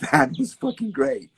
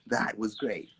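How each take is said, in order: First: High, loud self-praise; hammed-up high loud cheer; mock gushing. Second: Said in the usual way. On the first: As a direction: gush over your own piece. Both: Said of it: "no dancer does a piece and goes".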